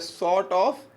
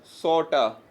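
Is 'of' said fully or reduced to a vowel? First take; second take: full; reduced. First: The word 'of' is said in full. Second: The word 'of' shrinks to a short vowel.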